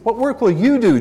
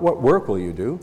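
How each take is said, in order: First: It is asked as a demanding, challenging question. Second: It is asked as a plain, neutral question. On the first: The askers are demanding proof of a miracle. The speaker calls it right. "Come on, Jesus, show us another miracle" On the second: A simple request for information. The speaker calls it wrong. "Not what work will you do"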